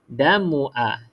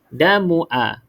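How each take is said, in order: First: The vowel after the m is kept short. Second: The vowel after the m is kept short.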